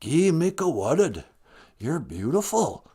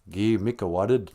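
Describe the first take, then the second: First: Put-on lilting Rez accent, slowing at the end; singsong Rez-accented phrase. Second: Said in the usual way. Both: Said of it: "you're saying it with a Rez accent".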